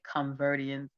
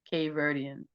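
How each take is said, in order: First: The word begins with a 'con' sound. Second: The word begins with a 'cape' sound. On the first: The speaker calls it wrong. "I said Converdians" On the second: The speaker calls it right. "that's what it is"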